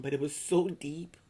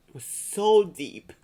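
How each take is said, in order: First: Said in the usual way. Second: Much louder, slow, pressed out with feeling; emphatic and loud. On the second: Real, not acted. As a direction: let the repeat burst out, slowly. Repeating with rising emotion.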